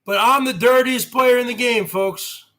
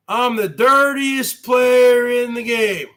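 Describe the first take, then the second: First: Said in the usual way. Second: Catchphrase shout. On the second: Acted. Streamer shouting his wrestling boast to viewers.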